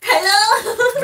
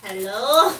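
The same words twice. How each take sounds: First: High, loud, rising hello; exaggerated high-pitched questioning hello. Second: Lower, loud questioning hello; a loud, tentative hello with a rising end; calling out. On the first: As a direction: call out in a put-on high voice. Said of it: "it's like a high-pitched voice". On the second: Pretend. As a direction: call into the dark for an answer. Calling out into the dark room.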